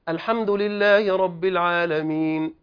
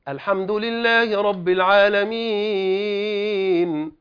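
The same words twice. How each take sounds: First: The long vowel is held for two counts. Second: The long vowel is held for four or five counts. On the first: "القارئ الأول قرأ بالقصر، قرأ بحركتين" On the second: "والقارئ الثاني قرأ ب4 أو 5"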